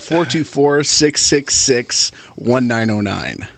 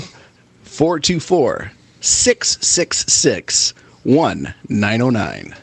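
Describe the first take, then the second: First: The number is said at normal speed. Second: The number is said slowly.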